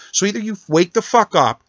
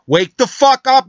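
First: Raised angry demand. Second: Louder, higher and slower, roaring the words out; furious shout. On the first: Angry rant at President Trump. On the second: Ranting caller screaming at President Trump, furious shout. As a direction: yell it at him full force, stretching each word. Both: Real, not acted.

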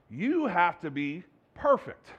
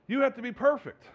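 First: Slow, weighty "You have to be perfect"; slow deliberate command. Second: Higher, pushed "You have to be perfect"; raised insistent command. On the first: Jesus demanding perfection, slow and weighty. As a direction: lay each word down slowly. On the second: Jesus insisting on perfection, higher and pressing. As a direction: lift it up and insist. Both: Retold or imitated. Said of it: "Jesus comes out and says".

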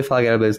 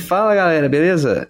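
First: Said in the usual way. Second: Smooth, velvety radio greeting. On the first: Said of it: "não teve Fala, galera, beleza?". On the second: Shown as a demonstration. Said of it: "essa voz aveludada chegando".

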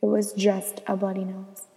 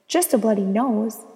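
First: Said in the usual way. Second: Louder, indignant questioning repeat; incredulous echo. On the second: A narrator's reading. Girl reacts to her first bloody nose, incredulous. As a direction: throw the words back in disbelief. Narrator echoes the verdict in disbelief.

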